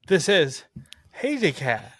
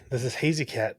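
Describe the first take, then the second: First: It is said happily, with mouth more open. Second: It is said in a plain, neutral tone.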